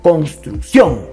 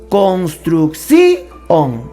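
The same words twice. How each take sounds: First: The final i and o are joined together. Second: The final i and o are split apart. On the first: The speaker calls it right. "La manera correcta de pronunciar esta palabra es construcción, con acento en la O" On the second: The speaker calls it wrong. "esta palabra tiene hiato, debería pronunciarla así"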